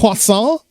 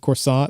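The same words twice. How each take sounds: First: Croissant is said with a French accent. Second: Croissant is said with an American accent. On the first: A local says it. "Oh, you mean a" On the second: A visitor says it. "you go to Paris and you say"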